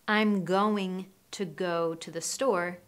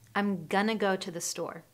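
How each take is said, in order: First: 'Going to' is said as two separate words. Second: 'Going to' is blended into one word. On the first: The speaker calls it wrong. "They don't say" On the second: The speaker calls it right. "we're blending the sounds between going to"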